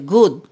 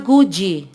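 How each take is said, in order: First: The final D sound is left silent. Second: The final D sound is clearly pronounced. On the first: The speaker calls it right. "Você não pronuncia o D final" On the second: The speaker calls it wrong. "Não pode falar good"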